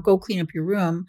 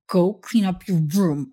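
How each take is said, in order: First: It is said in a regular, neutral tone. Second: It is said in a marked, stern tone.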